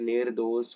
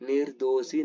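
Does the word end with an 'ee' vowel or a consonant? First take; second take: consonant; ee vowel. First: The word ends with a consonant. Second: The word ends with an 'ee' vowel. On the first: The speaker calls it right. "निर्दोष होती है" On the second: The speaker calls it wrong. "निर्दोषी नहीं होती"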